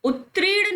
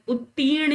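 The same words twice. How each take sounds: First: उत्तीर्ण garbled as ut-red, higher pitch; wrong pronunciation. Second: उत्तीर्ण with long tee, r after it; correct pronunciation. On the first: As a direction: say उत्तीर्ण as ut-rern, r moved forward. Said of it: "उत्तीर्ण नहीं होता". (उत्तीर्ण को 'उत्रेड़' जैसा) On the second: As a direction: say उत्तीर्ण as ut-teern. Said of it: "उत्तीर्ण याद करिए". (उत्तीर्ण में लंबा 'ती', र बाद में) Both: Shown as a demonstration.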